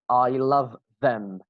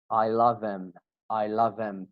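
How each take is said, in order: First: Slow, each word clear; slow careful reading. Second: "love them" blended into "lovem" with the th dropped; linked as one word. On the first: Teacher reading the example slowly to students. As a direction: read it word by word. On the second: Teacher showing students how native speakers link it. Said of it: "As one single word". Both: Shown as a demonstration.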